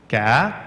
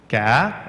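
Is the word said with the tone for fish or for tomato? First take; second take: fish; fish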